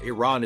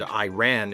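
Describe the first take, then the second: First: The first syllable sounds like 'ih'. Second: The first syllable sounds like 'eye'. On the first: It names the country. The speaker calls it right. "Iran is the name of a country" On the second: It names a pop song. The speaker calls it wrong. "Iran is a flock of seagulls"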